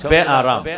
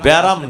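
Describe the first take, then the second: First: It is said as two separate full parts. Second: It is said as one short merged word. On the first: This is the original full form meaning no comfort. The speaker calls it right. "শব্দটা বে আরাম" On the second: This is the everyday shortened form. The speaker calls it wrong. "সংক্ষিপ্ত রাখতে রাখতে লেগে গেছে এটা ব্যারাম হইছে"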